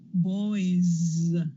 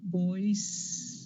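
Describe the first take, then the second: First: The final sound is a buzzing Z. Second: The final sound is a hissing S. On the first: The speaker calls it right. "they say boys with that vibration" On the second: The speaker calls it wrong. "instead of"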